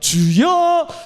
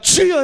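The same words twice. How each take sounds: First: The stress is on the second syllable. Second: The stress is on the first syllable. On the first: This is how foreigners cry out in prayer. "뒤에 있자니까" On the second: This is how Koreans cry out in prayer. "우리는 앞에 있으니까"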